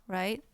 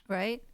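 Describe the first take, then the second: No difference in how they are said.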